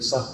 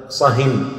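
First: Said in the usual way. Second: صهن said slowly with a clear final n; nunation shown. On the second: Shown as a demonstration. Teacher to students, showing the tanween on صهن slowly. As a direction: draw out صهن, landing on the n of tanween. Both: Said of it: "هذا تنوين إيش؟".

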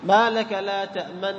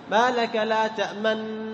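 First: تأمن slow, lips rounded right after the meem; correct ishmam. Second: تأمن slow, lips rounded only after reaching the nun; delay the rounding until the nun in تأمن; wrong ishmam. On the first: Teacher modelling the correct timing, slow. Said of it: "بعد الميم مباشرة". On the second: Teacher showing the mistaken version, slow. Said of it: "ما تقول". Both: Shown as a demonstration.

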